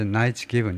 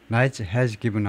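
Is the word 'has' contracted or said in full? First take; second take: contracted; full. First: 'Has' is reduced to a short s sound. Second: 'Has' is said in full as a separate word. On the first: The speaker calls it right. "Knight's given 이렇게 하셔야죠" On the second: The speaker calls it wrong. "Knight has given 하면 안 돼요"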